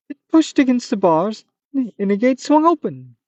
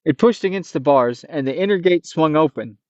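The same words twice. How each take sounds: First: Narration still in the high monster voice; slipping into the creature pitch; leftover Manticore voice. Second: Said in the usual way. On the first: Acted. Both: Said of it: "Oh, it, it".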